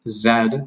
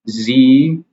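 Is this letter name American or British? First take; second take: British; American. First: The letter is named the British way. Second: The letter is named the American way. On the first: "Z is the pronunciation in British" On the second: "Z is the pronunciation in American English"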